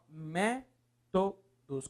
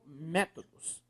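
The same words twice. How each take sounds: First: "Métodos" broken into slow, separate syllables. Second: Said in the usual way. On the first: Shown as a demonstration. Teacher splitting the word for the class, syllable by syllable. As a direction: space out each syllable of "Métodos".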